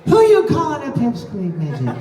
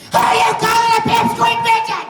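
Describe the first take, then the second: First: Trailing off at the end, imitating; lightly mimicked weak finish; imitating a fading line. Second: Full furious shout. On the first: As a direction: let the end die away. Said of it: "you kinda died out at the end". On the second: Shown as a demonstration. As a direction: scream it at full force. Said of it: "Here is your reward".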